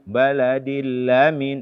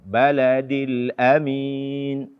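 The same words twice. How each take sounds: First: The glottal stop before amin is weak or missing. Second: The glottal stop before amin is clearly pronounced. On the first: The speaker calls it wrong. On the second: The speaker calls it right.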